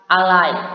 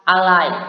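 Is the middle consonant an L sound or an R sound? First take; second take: L sound; L sound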